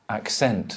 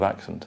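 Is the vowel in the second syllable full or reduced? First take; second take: full; reduced. First: The second syllable has a full vowel, like 'sent'. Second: The second syllable has a reduced schwa vowel. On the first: The speaker calls it wrong. "the person who doesn't know will say, who's Spanish, will say ac, accent" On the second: The speaker calls it right. "Instead of accent"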